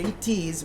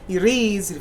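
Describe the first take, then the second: First: "it is" with a true T sound; clearly sounded T. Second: "it is" with the T softened to a quick tap; flap T. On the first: Teacher shows learners the unflapped form, "it is" with clear T. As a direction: say "it is" with the T fully pronounced, not flapped. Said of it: "flap T". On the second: Teacher demonstrates American linking for learners, "it is" with flapped T. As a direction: run "it is" together, flapping the T like "ih-diz". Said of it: "dropping T". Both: Shown as a demonstration.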